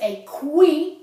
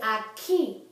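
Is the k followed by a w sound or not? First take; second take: with w; without w. First: A w sound follows the k. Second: No w sound follows the k. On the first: The speaker calls it wrong. "You don't say a qui" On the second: The speaker calls it right. "you say a key"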